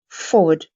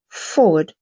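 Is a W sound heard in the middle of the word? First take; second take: yes; yes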